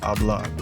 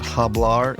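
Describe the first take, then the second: First: The h at the start is silent. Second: The h at the start is pronounced. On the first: The speaker calls it right. "it's hablar" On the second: The speaker calls it wrong. "This is not hablar"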